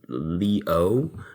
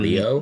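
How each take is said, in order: First: The two vowels are kept clearly separate. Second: The two vowels run together smoothly. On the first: The speaker calls it right. "the E and the O are separated" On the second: The speaker calls it wrong.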